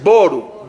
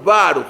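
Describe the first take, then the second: First: "boru" with a rounded o sound, said slowly. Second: "baruch" with an open a sound. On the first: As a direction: say "boru" with a closed o, like boruch. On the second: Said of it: "y los sefaradim, baruch". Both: Shown as a demonstration.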